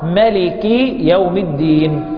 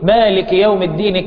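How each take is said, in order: First: The vowel after the m is short. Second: The vowel after the m is long. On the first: This is the reading with the alif dropped. "عكسه القصر أو الحذف، فتكون القراءة" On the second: This is the reading with the alif kept. "كما لفظ بها قراءة عاصم والكسائي"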